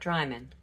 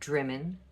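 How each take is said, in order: First: The first syllable has a long 'eye' vowel. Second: The first syllable has a short 'i' vowel. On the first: The speaker calls it wrong. "not Dryman" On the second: The speaker calls it right. "Drimmen, not Dryman"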